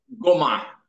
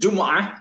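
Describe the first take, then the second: First: The word begins with a hard g sound. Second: The word begins with a j sound.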